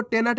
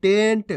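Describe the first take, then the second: First: टेनट in two beats, "te-nat"; गलत उच्चारण. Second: टेंट as one beat, "tent"; सही उच्चारण. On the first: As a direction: misread टेनट with a full न. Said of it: "टेनट नहीं पढ़ना". (टेनट में न पूरा बोलकर) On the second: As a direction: say टेंट with न joined straight to ट. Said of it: "आपको टेनट नहीं पढ़ना". (टेंट में आधा न, एक साथ) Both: Shown as a demonstration.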